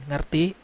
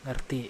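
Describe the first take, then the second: First: Rising question, asking if he understood. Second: "Ngerti" said lower and softer, falling; answering reply. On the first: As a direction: ask it with a lift at the end. Teacher checks child understood. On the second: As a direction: give a low, quiet yes. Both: Acted.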